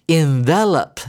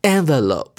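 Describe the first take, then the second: First: "envelope" said in-VEL-up, middle syllable stressed; slow verb "envelope", short final "up": in-VEL-up; verb pronunciation. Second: "envelope" said EN-vuh-lope, first syllable stressed; noun pronunciation. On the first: Teacher repeats the verb, "envelope" stressed in-VEL-up. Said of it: "老师再念一次". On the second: Teacher contrasts the noun, "envelope" stressed EN-vuh-lope. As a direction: lead hard on EN in "envelope", end on long "lope". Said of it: "有加E的话就变成名词". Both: Shown as a demonstration.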